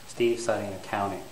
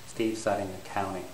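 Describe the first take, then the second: Both takes have the same delivery.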